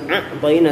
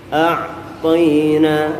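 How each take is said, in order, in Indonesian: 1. Vokal di awal langsung menyambung ke kata. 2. Vokal terbuka dulu, baru bunyi tenggorokan. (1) "bukan a'tayna" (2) "Buka dulu mulutnya a, baru masuk ke ain di tengah tenggorokan"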